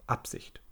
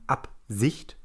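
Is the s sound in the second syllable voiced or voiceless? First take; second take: voiceless; voiced. First: The s in the second syllable is voiceless. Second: The s in the second syllable is voiced. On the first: The speaker calls it right. "man sagt eben" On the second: The speaker calls it wrong. "Man würde nicht sagen"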